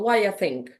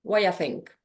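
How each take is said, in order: First: It is said fast with the sounds reduced. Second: The same.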